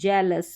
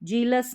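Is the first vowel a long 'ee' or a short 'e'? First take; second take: short e; long ee. First: The first vowel is a short 'e' sound. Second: The first vowel is a long 'ee' sound. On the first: The speaker calls it right. "ई ए का उच्चारण ए करके हो रहा है" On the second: The speaker calls it wrong. "जीलस नहीं"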